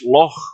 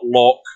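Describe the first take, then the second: First: The word ends with a throaty ch sound. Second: The word ends with a hard k sound. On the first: The speaker calls it right. "It's Loch Lomond" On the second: The speaker calls it wrong. "it's not Loch. There's no K in Loch"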